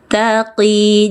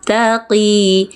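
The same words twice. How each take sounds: No difference in how they are said.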